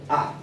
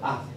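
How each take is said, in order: First: The pitch is short and abrupt. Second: The syllable is light and weak. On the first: "El cuarto tono es seco" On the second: "el tono neutro queda como por defecto"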